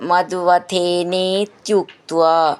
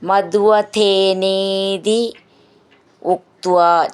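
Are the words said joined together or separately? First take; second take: joined; separately. First: The two words are merged into one. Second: The two words are said separately.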